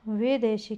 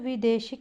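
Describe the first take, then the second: First: The first syllable has an 'ai' vowel. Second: The first syllable has a short 'i' vowel. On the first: The speaker calls it right. "वैदेशिक होगा" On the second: The speaker calls it wrong. "विदेशिक नहीं होगा"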